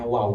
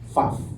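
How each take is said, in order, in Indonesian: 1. Kata ini diawali dan diakhiri dengan bunyi w. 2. Kata ini diawali dan diakhiri dengan bunyi v. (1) "huruf waw itu dibacanya waw" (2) "bukan vav"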